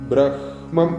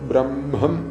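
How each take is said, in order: First: The h sound comes before the m. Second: The m sound comes before the h. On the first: This is how it is written. "ബ്രഹ്മം എന്നാണ് എഴുതിയിട്ടുള്ളത്" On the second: This is how it should be recited. "ചൊല്ലുമ്പോൾ ബ്രഹ്മം എന്ന് വരണം"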